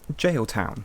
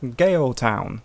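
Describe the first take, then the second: First: The name begins with a J sound. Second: The name begins with a hard G sound. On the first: The name openly says jail. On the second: The name hides that it means jail.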